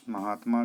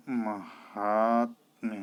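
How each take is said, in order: First: महात्मा at normal speed, ending in "maa"; form to correct. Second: महात्म्य drawn out, long "haat"; correct pronunciation. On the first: Teacher names the word to fix, unbroken महात्मा. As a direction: say महात्मा with a long final vowel. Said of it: "का". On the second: Teacher gives the right form, very slow महात्म्य. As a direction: stretch and split महात्म्य slowly. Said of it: "होता है". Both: Shown as a demonstration.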